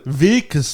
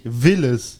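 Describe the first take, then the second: First: The name is said with a k sound. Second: The name is said without a k sound. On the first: The speaker calls it right. "Wilkes, nicht Willes" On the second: The speaker calls it wrong. "nicht Willes"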